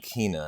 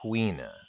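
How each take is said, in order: First: The name begins with a plain k sound. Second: The name begins with a kw sound. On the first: "I've always called him Kina" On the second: "Like Q U E E N A"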